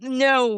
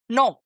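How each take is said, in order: First: Said with an American accent and gliding vowel. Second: Said with a Spanish accent and pure vowel. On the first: "like Americans do" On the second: "to me, the word no is N O"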